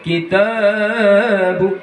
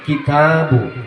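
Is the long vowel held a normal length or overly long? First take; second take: overly long; normal. First: The long vowel is stretched well beyond two beats. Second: The long vowel is held for two beats. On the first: The speaker calls it wrong. "Tidak boleh kitabu, enggak boleh" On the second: The speaker calls it right. "Kitabu seperti itu"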